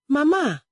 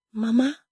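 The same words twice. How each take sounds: First: High call with a falling end; urgent call. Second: High, rising call to mother; questioning call. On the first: Daughter calls as her mother's eyes close, urgent call. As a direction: call out to mother, pitched well up. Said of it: "Adaize called again". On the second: Daughter calls her unresponsive mother, questioning call. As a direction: call out with the pitch sliding up. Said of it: "she called". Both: A narrator's reading.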